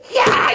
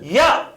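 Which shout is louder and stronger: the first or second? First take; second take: second; first. First: The shout is much louder and harsher. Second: The shout is moderately loud and firm. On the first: The warning is at its strongest. "그 다음에는 야 이렇게 나와요" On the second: The warning is getting stronger. "그 다음에 야 이렇게 나와요"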